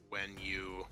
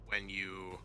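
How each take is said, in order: Both takes have the same delivery.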